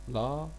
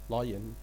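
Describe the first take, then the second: First: The first syllable sounds like 'lie'. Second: The same.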